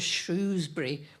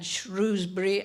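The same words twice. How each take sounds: First: The R sound after 'Sh' is dropped. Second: The R sound after 'Sh' is pronounced.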